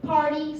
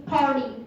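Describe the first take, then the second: First: Said in the usual way. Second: Party with the T softened to a D, "pardy"; American soft T. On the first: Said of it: "They pronounce the word party something party". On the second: Shown as a demonstration. Student showing American pronunciation, party said with a D for T. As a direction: turn the T of party into a quick D. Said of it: "will be pronouncing D in the American accent".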